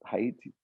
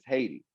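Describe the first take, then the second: First: The word is said in a French accent. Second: The word is said in an American accent. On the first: "you should say it in a French accent" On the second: "we say it in American as Haiti"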